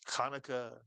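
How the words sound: It is said with an English pronunciation. The speaker calls it wrong. "we pronounce it any old way in English"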